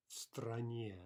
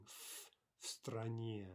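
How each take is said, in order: First: Said in the usual way. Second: Стране said slowly with a clear f sound before it; slow model of "f, стране" with the в devoiced. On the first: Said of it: "in the country would be стране". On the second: Shown as a demonstration. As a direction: stretch out "f, стране" so the f is heard. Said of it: "Note the devoicing".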